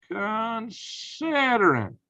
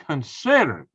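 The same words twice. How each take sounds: First: CONSIDERING stretched very slowly, pitched high; drawn-out emphasis. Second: Said in the usual way. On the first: Real, not acted. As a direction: draw out "considering" syllable by syllable in a raised voice. Repeats the word, drawn out for emphasis.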